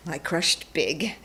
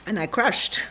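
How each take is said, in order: First: Big drawn out slowly with a rising lift; stress on big. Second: Said in the usual way. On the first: Shown as a demonstration. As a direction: lean into big and stretch it.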